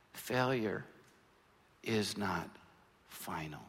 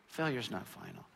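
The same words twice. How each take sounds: First: "Failure", pause, "is not", pause, "final", with each drop lower and softer; spaced-out emphasis. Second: Said in the usual way. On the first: Shown as a demonstration. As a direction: land each word alone, letting "final" fall to almost nothing. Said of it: "slow spaced emphatic statement". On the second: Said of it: "repeated in one breath".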